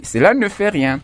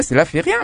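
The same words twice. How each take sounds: First: «ne» pitched up and stressed in «cela ne fait rien»; correct form stressed. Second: Said in the usual way. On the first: Shown as a demonstration. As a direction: hit the added «ne» clearly. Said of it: "mais on dit". (en appuyant sur le «ne» ajouté) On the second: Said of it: "on ne dit pas".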